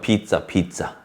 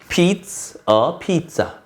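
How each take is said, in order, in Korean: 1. 이 문장은 빨리, 단어들이 붙어서 말해요. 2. 이 문장은 천천히, 단어마다 끊어서 말해요.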